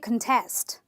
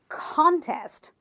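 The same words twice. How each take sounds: First: The stress is on the second syllable. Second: The stress is on the first syllable. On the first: The speaker calls it wrong. "I can't say contest" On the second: The speaker calls it right. "I am going to stress syllable number one"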